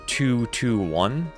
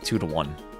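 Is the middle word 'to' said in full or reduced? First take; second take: full; reduced. First: The middle word is said in full. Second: The middle word is reduced to a schwa.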